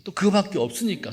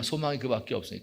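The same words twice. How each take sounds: First: 그밖에 lifted high and stressed; emphatic first telling. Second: 소망이 falling, quick and softer; quieter restatement. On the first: Pastor stresses that the son was all she had, 그밖에 said high. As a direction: raise the pitch on 그밖에 to stress her only son. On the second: Pastor repeats that her only hope was the son, quick and softer. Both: Shown as a demonstration.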